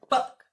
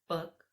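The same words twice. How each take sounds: First: It is said loudly with a strong burst. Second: It is said with moderate, controlled force.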